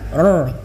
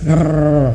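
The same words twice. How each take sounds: First: The r is trilled only briefly. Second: The r is trilled softly for a long time. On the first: "Ada yang bacanya getarannya tuh ar" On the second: "getarannya sampai habis"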